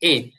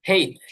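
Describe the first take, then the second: First: It begins with a vowel, without an h sound. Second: It begins with a clear h sound. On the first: "এটাকে আমরা এইচ বলি" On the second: "এটার আরেকটা উচ্চারণ আছে সেটা হচ্ছে হেইচ"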